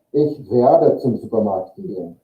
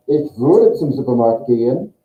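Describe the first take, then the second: First: WERDE said with an open e vowel; clear werde. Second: WÜRDE said with rounded ü vowel; clear würde. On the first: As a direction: say "werde" distinctly with unrounded e. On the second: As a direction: say "würde" distinctly with rounded lips. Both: Shown as a demonstration. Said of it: "only a pronunciation difference".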